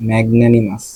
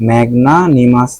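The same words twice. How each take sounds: First: ম্যাগনানিমাস with "nae" in the middle, not "naa"; corrected pronunciation. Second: ম্যাগনানিমাস with an open "naa" in the middle; rejected pronunciation. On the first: Teacher correcting herself or himself, ম্যাগনানিমাস with fronted "nae". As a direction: say "mag-NAE-ni-mas" for ম্যাগনানিমাস. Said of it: "উচ্চারণটা হবে ম্যাগনানিমাস". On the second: Teacher rejecting a pronunciation, ম্যাগনানিমাস with broad "naa". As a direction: say "mag-NAA-ni-mas" for ম্যাগনানিমাস. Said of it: "ম্যাগনানিমাস না". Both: Shown as a demonstration.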